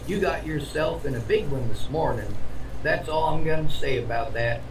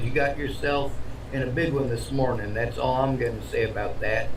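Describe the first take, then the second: First: The line is spoken with strong, lively emphasis. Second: The line is spoken dryly, almost in a monotone. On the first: "I figured I'd put some emphasis on it" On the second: "He actually said it very dryly, almost monotone"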